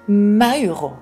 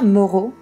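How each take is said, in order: First: The name is pronounced the Italian way. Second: The name is pronounced the French way. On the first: The speaker calls it right. "mais plutôt Mauro, quelque chose comme ça" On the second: The speaker calls it wrong. "ça se prononce pas Moreau"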